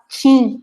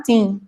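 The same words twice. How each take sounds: First: "tim" with the t softened to tch, "tchim"; "tim" adapted to the local tch sound so people understand; Campinas-style tim. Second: "tim" with a plain hard t, as in her home accent; "tim" spoken slowly, hard t before the i; northeastern tim. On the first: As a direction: say "tim" the São Paulo way, like "tchim". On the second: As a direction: say "tim" the Nordeste way, t not softened. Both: Shown as a demonstration. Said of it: "tenho que falar tim pra poder o pessoal entender".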